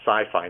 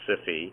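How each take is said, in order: First: It sounds just like the word sci-fi. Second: It does not sound like the word sci-fi. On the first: The speaker calls it right. "to me is sci-fi" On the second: The speaker calls it wrong. "not SIFI"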